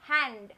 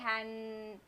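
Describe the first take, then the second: First: The n and d sounds blend together quickly. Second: The n and d sounds are pulled apart. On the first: The speaker calls it right. "I can hear the sound n and d distinctively, but I hear it very fast" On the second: The speaker calls it wrong. "I don't say hand"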